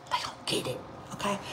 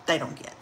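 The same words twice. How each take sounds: First: Hushed, voiceless repeat; whispered aside. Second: Said in the usual way. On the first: Real, not acted. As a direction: whisper it like a secret. Confiding repeat of the same line.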